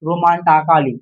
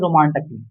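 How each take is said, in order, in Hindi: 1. t के बाद एक अतिरिक्त स्वर बोला जाता है। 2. t के बाद कोई स्वर नहीं बोला जाता। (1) "अगर पढ़ेंगे रोमांटाकाली हो जाएगा" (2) "ए को नहीं पढ़े"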